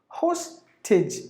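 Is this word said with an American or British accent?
British. The first vowel is said with a British accent.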